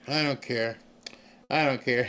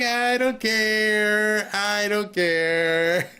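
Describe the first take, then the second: First: It is said flatly, without enthusiasm. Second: It is said with great enthusiasm.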